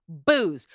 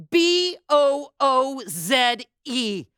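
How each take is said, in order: First: Said in the usual way. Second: B O O Z E drawn out one letter at a time; spelled out. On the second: Shown as a demonstration.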